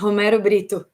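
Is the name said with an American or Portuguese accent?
Portuguese. The name is said with a Portuguese accent.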